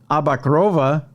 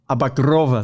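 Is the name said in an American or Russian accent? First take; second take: American; Russian. First: The name is said in a plain American accent. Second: The name is said in a Russian accent.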